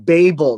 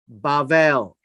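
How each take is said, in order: First: It is said with American English pronunciation. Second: It is said with Hebrew pronunciation. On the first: "That's the American pronunciation" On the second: "the Hebrew name is Bavel"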